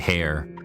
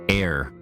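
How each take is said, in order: First: The word begins with an h sound. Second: The word begins with a vowel sound. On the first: The speaker calls it wrong. "I used to say hair" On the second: The speaker calls it right. "like heir to the throne"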